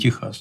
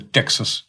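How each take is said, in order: First: The name is said with Russian sounds. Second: The name is said with English sounds. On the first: The speaker calls it wrong. "не Техас" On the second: The speaker calls it right. "по-английски читается Texas"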